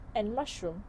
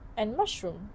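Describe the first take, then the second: The two takes are said the same way.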